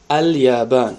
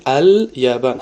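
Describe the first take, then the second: First: Said in the usual way. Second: Ал-Ябан drawn out slowly, each sound clear; slow careful Ал-Ябан. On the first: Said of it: "Бибинед, Ал-Ябан". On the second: Shown as a demonstration. Teacher slowly models Ал-Ябан for students. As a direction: spell out Ал-Ябан slowly for the class. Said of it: "Бибинед".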